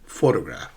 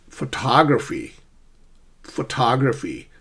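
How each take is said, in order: First: "Photograph" stressed on PHO, dropping low after; front-stressed "Photograph"; first-syllable stress. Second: "photography" with the weight on TOG; pho light, TOG strong in "photography"; shifted stress. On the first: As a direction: lean on PHO, let tograph fall. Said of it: "the first syllable is stressed". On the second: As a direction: move the stress to the second syllable of "photography". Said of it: "How do we sh-, shift stress?". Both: Shown as a demonstration.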